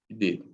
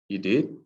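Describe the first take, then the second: First: It sounds agreeing. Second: It sounds curious and questioning. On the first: "In agreement" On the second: "When you're curious"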